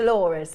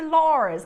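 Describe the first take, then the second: First: The name is said with a British accent. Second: The name is said with an American accent. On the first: The speaker calls it right. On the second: The speaker calls it wrong.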